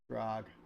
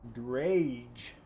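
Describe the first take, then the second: First: The name has a short vowel, like bag. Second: The name has a long vowel, like page. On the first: "I call it drag" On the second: "Like that?"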